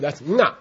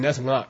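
First: The word is said with a high tone. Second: The word is said with a low tone. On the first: It means mantra. "it means still high tone" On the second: It means speech. "low tone means speech"

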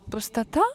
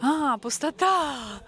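First: It sounds puzzled and questioning. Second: It sounds like sudden understanding.

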